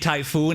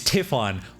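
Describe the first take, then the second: First: The name ends with a long 'oon' sound. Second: The name ends with a short 'on' sound. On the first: The speaker calls it wrong. "I've been saying Typhoon" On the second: The speaker calls it right. "it's Typhon"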